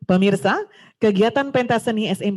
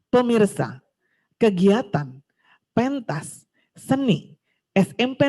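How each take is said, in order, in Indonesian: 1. Jedanya jatuh di tempat yang wajar dalam frasa. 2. Jedanya jatuh di tempat yang canggung dalam frasa. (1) "Mana yang pas?" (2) "itu tidak pas memberikan jedanya"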